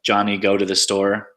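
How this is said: The pitch stays flat, like a statement. It reports a fact. "statements, which are just kind of flat"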